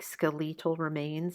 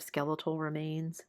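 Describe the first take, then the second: First: Skeletal is said in an Australian-style pronunciation. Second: Skeletal is said in the speaker's usual pronunciation. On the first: "The narrator has like an Australian accent" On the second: "instead of"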